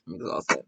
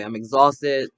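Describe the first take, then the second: First: Lower, softer, worn-out repeat; spent, sighing second take; exhausted sigh. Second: Said in the usual way. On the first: Real, not acted. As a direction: let it sag out tired.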